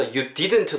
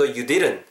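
First: "you didn't" with both D sounds firmly articulated; full D in DIDN'T. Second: "you didn't" with middle D tapped like Korean ㄹ; flapped D in DIDN'T. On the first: English teacher showing learners careful "didn't" with full D. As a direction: say "didn't" carefully, hard middle D and final T. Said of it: "디귿 사운드가 우리말로 리은 정도로". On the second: English teacher showing learners the relaxed "didn't", flapped middle D. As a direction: say "didn't" as "dirun", final T dropped. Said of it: "리은 정도로 바뀐다고 생각하시면서". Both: Shown as a demonstration.

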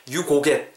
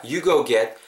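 First: "You go get" with GO as a short Korean 고, like 고객; wrong flat vowel. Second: "You go get" with GO gliding into an oo. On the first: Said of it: "이렇게 하지 마시고요". ("You go get"의 go를 짧은 '고'로 발음) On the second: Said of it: "우가 반복되는 구조입니다". ("You go get"의 go를 '어우'로 굴려서) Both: Shown as a demonstration.

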